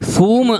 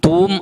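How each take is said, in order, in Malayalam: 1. ഈ വാക്ക് S ശബ്ദത്തിലാണ് തുടങ്ങുന്നത്. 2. ഈ വാക്ക് ശ്വാസം ചേർന്ന T ശബ്ദത്തിലാണ് തുടങ്ങുന്നത്. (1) "അത് അറബിയിൽ നിന്ന് വന്നതാണ്, സൂം ആണ്" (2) "കൃത്യമായി അതിൻ്റെ പ്രനൗൺസ് തൂം അല്ല"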